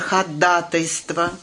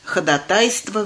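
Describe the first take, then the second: First: The stress is on the second syllable. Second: The stress is on the third syllable. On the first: The speaker calls it right. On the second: The speaker calls it wrong.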